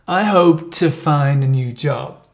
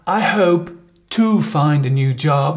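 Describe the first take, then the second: First: The word "to" is light and reduced to "t". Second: The word "to" is said fully, like "two". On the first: The speaker calls it right. "you would probably say, I hope to find t t" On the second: The speaker calls it wrong. "you don't really pronounce it two"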